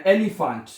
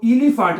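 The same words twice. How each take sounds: First: एलिफेंट starting with an "eh" sound; correct first vowel. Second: इलिफेंट starting with an "ee" sound; wrong first vowel. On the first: Teacher corrects the mistake for students, pronounced with eh. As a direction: say एलिफेंट as "eh-lee-fant", clearly. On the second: Teacher shows students the mistake, mispronounced with ee. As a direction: say इलिफेंट as "ee-lee-fant". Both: Shown as a demonstration. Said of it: "इसको इलिफेंट नहीं करना".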